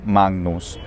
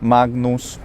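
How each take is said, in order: First: The g is a velar nasal before n. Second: The g is an unreleased stop before n. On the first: "doing a full-on velar nasal" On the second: "having an unreleased G sound"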